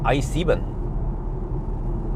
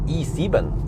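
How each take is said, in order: First: The letter is pronounced like English 'eye'. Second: The letter is pronounced like German 'ee'. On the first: The speaker calls it wrong. "Is that how you say it?" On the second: The speaker calls it right. "You say E, no, E, E seven"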